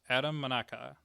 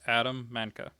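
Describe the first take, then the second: First: The surname is said with three syllables. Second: The surname is said with two syllables. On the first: The speaker calls it wrong. "not Manaka" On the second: The speaker calls it right. "Usually I heard Manka"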